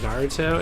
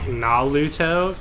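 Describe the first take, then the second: First: The middle consonant is an R sound. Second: The middle consonant is an L sound. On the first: The speaker calls it right. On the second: The speaker calls it wrong.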